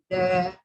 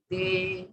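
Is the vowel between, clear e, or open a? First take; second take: open a; clear e. First: The vowel is a full open a. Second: The vowel is a clear e sound.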